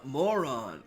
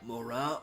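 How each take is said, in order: First: The name is said like the word moron. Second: The name is said as Moran. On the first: The speaker calls it wrong. "if you pronounce it wrong, it's moron" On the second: The speaker calls it right. "not Morgan. Moran"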